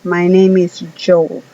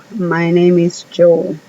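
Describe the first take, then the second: No difference in how they are said.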